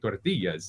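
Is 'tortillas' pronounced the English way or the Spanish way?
Spanish. It is said with a Spanish-style pronunciation. The speaker calls it right. "you got to say it right, like tortillas. You got to throw the flair in there"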